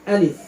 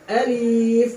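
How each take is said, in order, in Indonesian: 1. Vokalnya pendek, tidak dipanjangkan. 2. Vokalnya dipanjangkan. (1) "Alif tidak ada madnya" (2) "bukan dibaca alif"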